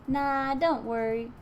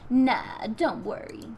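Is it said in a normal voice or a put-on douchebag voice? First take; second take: normal; douchebag voice. First: It is said in his normal voice. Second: It is said in a put-on douchebag voice.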